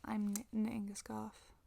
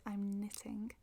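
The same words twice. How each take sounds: First: "knitting" with the T left out; Manchester pronunciation. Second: "knitting" with its middle T sounded; careful T in "knitting"; formal pronunciation. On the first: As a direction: drop the middle T of "knitting", Mancunian style. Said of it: "à Manchester, il est plus probable qu'on dise". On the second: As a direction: say "knitting" the standard way, T intact. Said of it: "formelle de le dire". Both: Shown as a demonstration.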